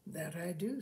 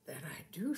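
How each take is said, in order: First: Said in the usual way. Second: Breathy shy whisper; a bashful husband whispering. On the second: A narrator's reading. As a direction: barely voice it, embarrassed. Fred's shy answer about kissing.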